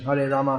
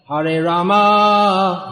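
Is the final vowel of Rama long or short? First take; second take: short; long. First: The final vowel of Rama is short. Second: The final vowel of Rama is long. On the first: It is the name Rama. The speaker calls it right. "if we want to be actually precise, then we should say" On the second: It becomes a name for Lakshmi. The speaker calls it wrong. "pronounced in such a way that it comes out more like"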